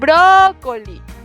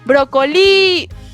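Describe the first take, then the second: First: The stress falls on the first syllable. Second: The stress falls on a later syllable. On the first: The speaker calls it right. "Yo lo llamaría tenemos para comer brócoli" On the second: The speaker calls it wrong. "yo lo llamo brócoli. No, ¿verdad?"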